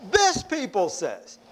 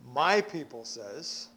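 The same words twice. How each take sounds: First: THIS stressed, slow, falling and dismissive; slow disdainful "This" with falling tune; cold distancing tone. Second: MY said softly and lower, rising, as if fond; a tender, claiming "My people says"; quiet fond "My"; warm possessive tone. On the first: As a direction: push away with "This people says". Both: Shown as a demonstration. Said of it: "what is the inflection".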